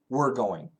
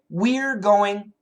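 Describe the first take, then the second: First: The word we're is reduced to sound like were. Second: The word we're is said fully and carefully. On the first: This is what people often say when speaking fast. "often we say" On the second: This is the standard form. "We should say"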